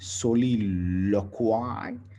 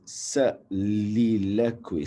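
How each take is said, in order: First: The vowel follows the written 'o' literally. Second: The vowel does not follow the written 'o'. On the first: The speaker calls it wrong. "You don't say it like that" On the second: The speaker calls it right. "It is soliloquy"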